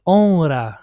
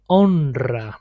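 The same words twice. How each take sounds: First: "honra" with a weak single R; simple R, mistaken. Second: "honra" with R trilled after the N; "honra" with a long Spanish trill; multiple R. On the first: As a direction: say "honra" without rolling the R after N. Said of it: "should be pronounced, uh, like". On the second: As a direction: roll the R strongly in "honra". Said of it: "we pronounce it multiple". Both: Shown as a demonstration.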